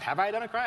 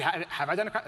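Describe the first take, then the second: First: Higher, louder mock-alarmed Have I done a crime?; exaggerated disbelief. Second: Said in the usual way. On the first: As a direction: push the question up in mock alarm. Repeats own question for emphasis. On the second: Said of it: "And I was like".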